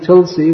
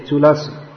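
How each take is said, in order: First: It is said with two syllables, without a middle vowel. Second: It is said with three syllables, with a middle vowel. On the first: This is the everyday Hindi or Bengali form. The speaker calls it wrong. "which is common Hindi and Bengali translation" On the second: This is the form used in the Sanskrit verse. The speaker calls it right. "in the Sanskrit verse, we should say Tulasi"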